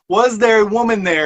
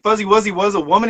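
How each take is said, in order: First: It is said slowly and clearly. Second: It is said fast and run together.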